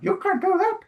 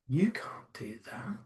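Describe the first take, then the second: First: It is said in a squeaky Mickey Mouse voice. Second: It is said in a low, sultry voice.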